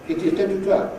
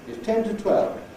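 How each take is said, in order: First: Every word is said in full, strong form. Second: It is reduced to a short weak form. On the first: The speaker calls it wrong. "it's so often pronounced" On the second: The speaker calls it right. "what should sound like is"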